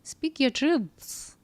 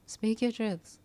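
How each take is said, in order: First: Higher and slow, each word laid down; slow emphatic coaching. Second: Said in the usual way. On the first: Shown as a demonstration. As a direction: urge her gently but firmly, slowly.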